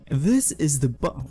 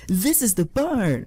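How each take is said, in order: First: It is said in the speaker's ordinary voice. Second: It is said in a put-on cartoon character voice.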